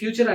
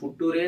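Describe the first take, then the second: First: It has a 'ch' sound and ends in 'er'. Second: It is read letter by letter, ending in 'ray'. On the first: It follows what we have heard. "అయితే మనం ఫ్యూచర్ అనేస్తున్నాం" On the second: It follows the spelling.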